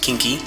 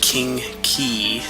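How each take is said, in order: First: The two syllables run together as one word. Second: The two words are kept clearly separate. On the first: The speaker calls it wrong. "not Kinky" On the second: The speaker calls it right. "it's pronounced King Key"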